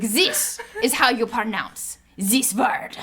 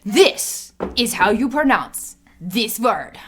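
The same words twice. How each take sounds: First: Put-on slow second stab at a French accent; measured announcer with a botched French accent; badly faked French accent. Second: Put-on slow French accent that slips into German; German-sounding attempt at a French trailer announcer; drawn-out, badly faked French-German accent; botched French accent. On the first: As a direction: imitate a French voice-over, very slowly. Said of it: "This is why I can't do accents on command". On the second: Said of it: "Why is he German?".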